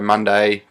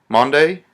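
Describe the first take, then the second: First: It is said with an Australian accent. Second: It is said with an American accent.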